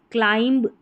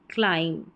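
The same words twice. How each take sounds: First: क्लाइंब with b released; wrong pronunciation. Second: क्लाइम falling to a final m; silent b. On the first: Teacher repeating the error, b voiced in क्लाइंब. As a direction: sound the last b in क्लाइंब. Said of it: "क्लाइंब नहीं". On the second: Teacher repeating correction, क्लाइम with silent b. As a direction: drop the b in क्लाइम. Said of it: "बी silent रहता है". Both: Shown as a demonstration.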